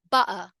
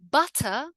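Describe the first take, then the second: First: "butter" as "bu'ah"; throat catch in place of T in "butter"; glottal T. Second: "Butter" with a crisp T; careful "but-tah"; full T. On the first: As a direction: cut the T in "butter". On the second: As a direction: sound the T fully in "Butter". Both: Shown as a demonstration. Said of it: "in the two different ways".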